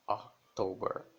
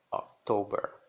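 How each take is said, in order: First: October starting with an A sound, slowly; October, slow, ah-ktober. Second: October with an open O; October, open O, louder. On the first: (October com som de A) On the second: (October com O aberto) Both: Shown as a demonstration. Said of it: "som de O".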